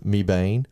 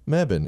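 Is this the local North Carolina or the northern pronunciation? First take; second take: northern; local. First: The name is said the northern way. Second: The name is said the local way. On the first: The speaker is from the north. The speaker calls it wrong. "or if you're from the north, it's Mebane. But, we don't say it like that here" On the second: The speaker is from North Carolina. The speaker calls it right. "Phonetically, it's Mebane in North Carolina"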